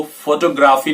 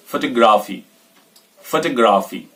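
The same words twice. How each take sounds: First: photography with a full, stressed "FOH-toh"; photography as "FOH-toh-graafee", rising; wrong stress on FO. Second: photography with a short weak first syllable, "fuh-TOG-raafee"; photography reduced at the start, falling at the end; stress off FO, on TOG. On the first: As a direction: lean on फो in photography. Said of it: "photography नहीं बोलेंगे". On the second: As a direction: keep फो light in photography and press the next syllable. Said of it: "फो पे जोर नहीं देना". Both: Shown as a demonstration.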